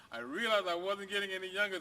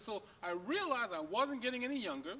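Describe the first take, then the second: First: The dog's line again, a bit louder and drawn; lightly voiced dog. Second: Said in the usual way. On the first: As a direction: say it as the old dog telling his tale. Dog's line redone after laugh.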